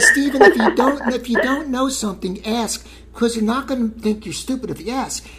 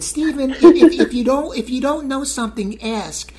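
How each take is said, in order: First: Squeaky high mom impression. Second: High mom voice, loud on the ifs; squeaky high-pitched mom impression. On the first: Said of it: "But she said". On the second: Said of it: "why I do my mom's voice like that".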